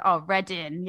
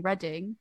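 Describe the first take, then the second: First: "Reading" with -in for the final -ing; dropped g. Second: Said in the usual way. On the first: Shown as a demonstration. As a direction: say "Reading" with no g at the end. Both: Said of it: "instead of saying Reading".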